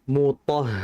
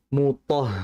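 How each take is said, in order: The two takes are said the same way.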